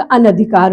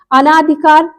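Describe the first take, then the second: First: अनधिकार with a short na, pitched low; correct form. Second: अनाधिकार with a long naa; wrong form. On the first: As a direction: keep the second vowel of अनधिकार short. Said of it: "अनधिकार हो जाएगा". (अनधिकार में "न" छोटा) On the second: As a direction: stretch the second vowel of अनाधिकार to "aa". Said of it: "इसका क्या हो जाएगा". (अनाधिकार में "ना" लंबा) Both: Shown as a demonstration.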